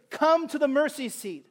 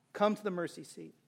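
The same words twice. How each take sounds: First: Ringing call. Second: "Come to the mercy seat" said much softer, gentle weight on "Come"; soft invitation. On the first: Preacher inviting unbelievers forward, ringing call. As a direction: call "come to the mercy seat" across the room, leaning on "come". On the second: Preacher gently inviting seekers to God, soft invitation. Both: Acted.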